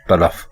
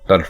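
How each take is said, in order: First: A vowel comes between 'l' and 'f'. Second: No vowel comes between 'l' and 'f'. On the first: The speaker calls it right. "दुरुस्त है तलफ" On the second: The speaker calls it wrong. "तल्फ गलत है"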